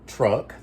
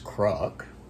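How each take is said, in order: First: The word begins with a T sound. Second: The word begins with a K sound. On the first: "C's for T's" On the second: "that's cruck"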